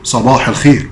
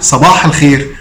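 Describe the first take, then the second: First: It is said in a sad, low tone. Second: It is said cheerfully, with a laugh. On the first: The greeter has problems and is upset. "ونبره صوته كده فيها حزن" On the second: The greeter is in a good mood. "وقال لك هو بيضحك"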